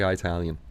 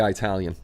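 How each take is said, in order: First: Italian said eye-TAL-yan; Italian with a long eye at the start; Italian said the joking way; eye-talian. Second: Italian with a short i, ih-TAL-yan; Italian starting ih, not eye; Italian said the proper way. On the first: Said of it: "I say Italian". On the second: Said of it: "I don't say Italian". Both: Shown as a demonstration.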